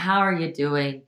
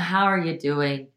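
First: It is asked in a heavy, pitying tone. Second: It is asked in a heavy, pitying tone.

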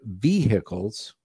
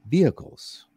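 First: Vehicles is said in a rural, redneck-style way. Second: Vehicles is said in the standard way. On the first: The speaker calls it wrong. "I say the word vehicles" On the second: The speaker calls it right. "when it's supposed to be, I guess, vehicles"

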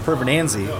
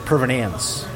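First: The name ends with a final vowel sound. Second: The name ends without a final vowel sound. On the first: The speaker calls it right. "it's like my last name" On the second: The speaker calls it wrong. "they don't do the E at the end"

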